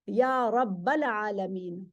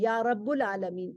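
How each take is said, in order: First: The word after 'ya' ends in 'al'. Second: The word after 'ya' ends in 'ul'. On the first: The speaker calls it right. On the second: The speaker calls it wrong.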